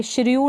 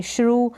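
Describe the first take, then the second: First: श्र्यू said as "shri-yoo"; wrong-reading demo, श्र्यू as "shri-yoo"; mispronounced with y-glide. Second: Said in the usual way. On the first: Shown as a demonstration. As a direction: add an "i-y" glide in श्र्यू before the oo. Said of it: "श्र्यू नहीं पढ़ देंगे". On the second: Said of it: "इसको भी आप श्रू पढ़ेंगे".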